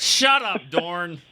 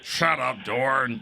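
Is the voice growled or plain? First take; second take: plain; growled. First: It is said in a plain, ungrowled voice. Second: It is said in a low, growling voice. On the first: The speaker calls it wrong. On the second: The speaker calls it right.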